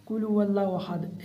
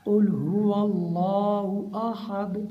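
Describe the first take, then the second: First: Rattled-off recitation, vowels cut short; hurried wrong reading. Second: Slow, measured chant with full long vowels; unhurried recitation. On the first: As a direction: rush through the verse carelessly. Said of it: "ऐसे नहीं पढ़ना". (जल्दबाज़ी में पढ़ना) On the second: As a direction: recite the verse carefully, taking your time. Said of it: "इत्मीनान से पढ़ना है". (इत्मीनान से तिलावत) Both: Shown as a demonstration.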